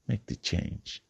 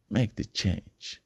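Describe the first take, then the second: First: Whispered urging. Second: Slow, deliberate voiced repeat of "Make the change."; slow voiced urging. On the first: Acted. Motivational speaker urging listeners to change, whispered. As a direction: lean in and breathe it like a secret. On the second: Speaker pressing listeners to change, slow and voiced. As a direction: stretch each word out, no longer whispered.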